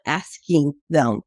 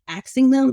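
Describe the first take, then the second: First: "asking" slowly and carefully as "ask-ing"; "asking" with s before k. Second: "asking" mispronounced as "axing", quoted back in correction; "asking" with s and k swapped, like "axing". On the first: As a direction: correct "axing" to a slow, careful "asking". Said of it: "You're, like, asking them". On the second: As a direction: say "asking" as "aks-ing", k before s. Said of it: "not asking them". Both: Retold or imitated.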